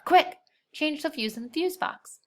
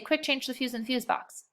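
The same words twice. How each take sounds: First: There is a breath pause after "quick". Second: It runs on without a pause after "quick". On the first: The speaker calls it right. "You would take a breath" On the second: The speaker calls it wrong. "Sounds weird"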